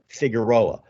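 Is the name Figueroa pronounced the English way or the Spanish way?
English. The name is said with an English pronunciation. It is the usual local anglicized way. "as opposed to Figueroa"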